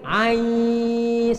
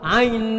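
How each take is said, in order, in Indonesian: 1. Vokalnya dipanjangkan sebelum bunyi sengau. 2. Vokalnya dipendekkan, langsung disengaukan. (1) "i-nya dipanjangin dulu" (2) "nggak sabar, langsung didengungin"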